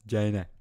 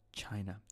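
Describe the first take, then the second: First: "China." barked much louder with a falling tune; a loud, insistent "China."; loud emphasis. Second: Said in the usual way. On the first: Real, not acted. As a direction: shout "China." short and falling.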